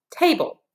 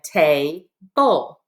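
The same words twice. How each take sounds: First: Table blended in one piece, higher; whole word. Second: Tay, bull as two separate parts; syllable by syllable. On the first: Teacher blending the two parts for pupils, table said whole. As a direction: join both syllables without a gap in table. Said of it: "put those back together". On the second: Teacher showing pupils both syllables, tay, bull spaced apart. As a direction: leave a gap between tay and bull. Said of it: "This syllable is". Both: Shown as a demonstration.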